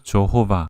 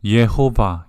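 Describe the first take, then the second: First: The name begins with a J sound. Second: The name begins with a Y sound. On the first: This is the form made easier for English speakers. "이것을 조호바 쉽게 발음을 한 것이죠" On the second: This is the form the name originally should have had. "예호바 이렇게 발음했어야 되는데"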